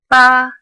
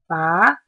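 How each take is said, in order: First: The pitch stays high and level. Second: The pitch rises from middle to high. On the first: "a flat tone that is high and level" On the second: "starts in the middle and rises to the top"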